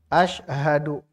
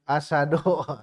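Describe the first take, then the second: First: The middle consonant is sh followed by h. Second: The middle consonant is a plain s sound. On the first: It means I bear witness. The speaker calls it right. "Hak kan harus muncul" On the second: It means lion. The speaker calls it wrong. "Jadi asyhadu jadi asadu"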